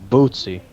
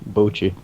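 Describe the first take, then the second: First: The middle consonant is a 'ts' sound. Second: The middle consonant is a 'ch' sound. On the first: The speaker calls it right. "How else can you pronounce that?" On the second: The speaker calls it wrong. "people say like Boochie"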